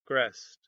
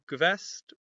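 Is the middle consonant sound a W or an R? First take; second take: R; W. First: It is said almost with an R sound. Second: It is said with a W sound. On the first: "almost with an R instead of a W sound" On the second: "rather than gewest"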